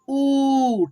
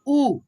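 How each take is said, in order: First: The vowel is drawn out and long. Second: The vowel is short and clipped. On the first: "इसको पढ़ेंगे थोड़ा खींच करके ऊ" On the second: "इसको पढ़ेंगे छोटे ऊ को ऊ"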